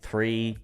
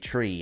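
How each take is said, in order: First: The word begins with a soft th sound. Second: The word begins with a hard t sound. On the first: This is how Americans say it. "you guys say three" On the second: This is how it is said in Ireland. "in Ireland I say tree"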